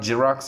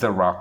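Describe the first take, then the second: First: The word begins with a J sound. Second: The word begins with a Z sound. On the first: The speaker calls it wrong. "not J" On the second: The speaker calls it right. "Z sound has to come"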